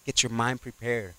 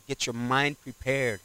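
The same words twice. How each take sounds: The two takes are said the same way.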